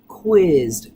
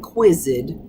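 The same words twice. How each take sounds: First: The ending blends in as a d sound. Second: The ending adds an extra syllable. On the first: The speaker calls it right. "the voiced blending with the voiced" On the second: The speaker calls it wrong. "not quizzed"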